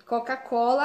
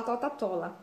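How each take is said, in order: First: Said in the usual way. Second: "Tota-Tola" with T replacing the C sounds; child's Tota-Tola. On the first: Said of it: "a criança já falar Coca-Cola". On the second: Shown as a demonstration. Therapist contrasts the right and wrong child speech. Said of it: "não falar Tota-Tola".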